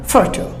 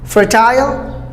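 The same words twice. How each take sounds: First: Fertile as a soft, short FUR-tl; American fertile with schwa; American pronunciation. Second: Fertile as FUR-tile, slow and rising; British fertile, long i; British pronunciation. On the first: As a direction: cut the ending of fertile. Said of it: "Americans just cut it". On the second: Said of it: "British go for the I sound". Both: Shown as a demonstration.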